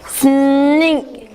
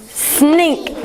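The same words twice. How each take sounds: First: Snink drawn out slowly; stretched word. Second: Said in the usual way. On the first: Shown as a demonstration. Teacher stretching a word for pupils. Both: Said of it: "we're gonna stretch these words".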